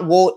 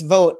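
First: The word is said with an imitated nonstandard pronunciation. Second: The word is said with its standard pronunciation. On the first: The speaker calls it wrong. "it's not vote" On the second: The speaker calls it right. "it's vote"

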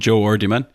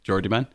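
First: The two words are said separately. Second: The two words run together quickly.

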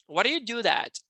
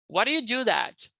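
Both takes have the same delivery.

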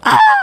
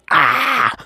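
First: It is shouted very loudly. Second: It is said at normal loudness.

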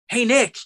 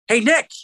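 First: It is said in the speaker's own voice. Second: It is said imitating his dad's voice.

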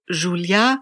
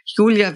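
First: The name is said the French way. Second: The name is said the German way.

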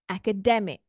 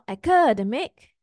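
First: The stress falls on the second-last syllable. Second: The stress falls away from the second-last syllable. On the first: The speaker calls it right. "our second last syllable" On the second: The speaker calls it wrong. "So not academic"

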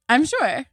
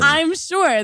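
First: It is said flatly, without conviction. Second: It is said firmly, with conviction. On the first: The speaker doubts what they are saying. The speaker calls it wrong. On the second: The speaker believes what they are saying. The speaker calls it right.

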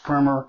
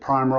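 First: The first vowel is a short I sound. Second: The first vowel is a long I sound. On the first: The speaker calls it right. "it's pronounced primer with a short I" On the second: The speaker calls it wrong. "I've pronounced it primer all of my life"

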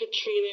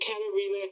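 First: The name is said with three syllables. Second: The name is said with four syllables. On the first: The speaker calls it wrong. "I totally mispronounced her name. It wasn't Katrina" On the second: The speaker calls it right. "it was Katarina"

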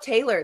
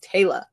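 First: The name ends with an audible R sound. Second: The name ends with no R sound. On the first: The speaker calls it wrong. "It's not Taylor. There's no R" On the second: The speaker calls it right. "It's literally just Taylor"

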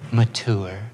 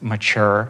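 First: The word is said in a posh, affected way. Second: The word is said in a plain, ordinary way. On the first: The speaker calls it wrong. "It sounds so pretentious, smug" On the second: The speaker calls it right. "please don't pronounce mature"

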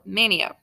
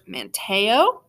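First: The T sound in the name is dropped. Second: The T sound in the name is pronounced.

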